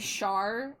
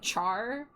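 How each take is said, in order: First: The name does not sound like Charizard's start. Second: The name sounds like the start of Charizard. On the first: The speaker calls it wrong. "someone calls me Char instead of" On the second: The speaker calls it right. "Char like Charizard"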